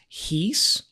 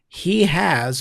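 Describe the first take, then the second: First: It is said as one contracted word. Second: It is said as two full words.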